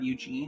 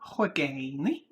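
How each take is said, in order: First: The name is said like 'Eugene'. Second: The name is said like 'Huigani'. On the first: The speaker calls it wrong. "It's not Eugene" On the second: The speaker calls it right. "it's Huigani"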